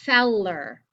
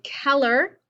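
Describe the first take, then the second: First: The word begins with a soft S sound. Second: The word begins with a hard K sound. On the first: The speaker calls it right. "you say" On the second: The speaker calls it wrong. "You don't say"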